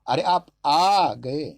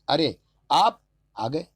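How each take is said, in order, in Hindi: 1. बलाघात तीसरे शब्द पर है। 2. बलाघात दूसरे शब्द पर है।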